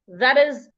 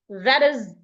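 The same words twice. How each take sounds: Both takes have the same delivery.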